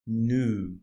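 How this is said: It is said with an American accent. "American English is new"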